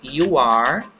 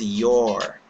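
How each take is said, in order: First: It is said as two separate full words. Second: It is said as one short contracted word.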